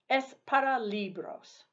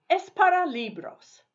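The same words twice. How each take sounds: First: Said in the usual way. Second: Bright call-out. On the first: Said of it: "teacher repeats prompt". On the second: Shown as a demonstration. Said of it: "teacher reads prompt twice".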